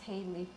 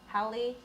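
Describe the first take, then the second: First: The name is said with a long first vowel, Haley. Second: The name is said with a short first vowel, Hallie. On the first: This is the everyday form people use. "but we just pronounce it as Haley" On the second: This is the original intended form of the name. "It's actually pronounced as Hallie"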